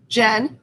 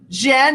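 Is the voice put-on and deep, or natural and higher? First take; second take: put-on deep; natural higher. First: It is said in a deep, put-on character voice. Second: It is said in her natural, higher voice. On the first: She is still playing the costumed character. "I try to do the voice as well as I can" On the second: She drops the character to be understood. "I changed my voice, my real voice"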